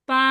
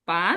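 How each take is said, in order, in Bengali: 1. সুরটা পুরো অক্ষর জুড়ে একই থাকে। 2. সুরটা নিচু থেকে উঁচুতে ওঠে। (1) "এটা যদি ফার্স্ট টোন দিয়ে কি হবে এটা" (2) "সেকেন্ড টোনটা কি হবে বলবো"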